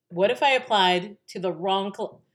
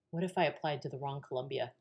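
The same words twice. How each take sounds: First: Louder, higher retold worry; mounting alarm. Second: Soft, quick worried thought; quiet worry. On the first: Daughter realizing a possible mistake, increasingly alarmed. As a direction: let the doubt grow into alarm. Second, rising take of the worry. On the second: Retold or imitated. Daughter wondering about the wrong Columbia, quietly worried.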